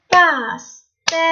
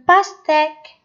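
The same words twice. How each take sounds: First: Pastèque slowly split as pas-tè-que; syllable by syllable. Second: Said in the usual way. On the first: Shown as a demonstration. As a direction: tap out pastèque with a gap after each syllable. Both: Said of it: "Tapez le mot".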